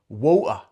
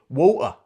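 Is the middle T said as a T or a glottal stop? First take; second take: glottal stop; glottal stop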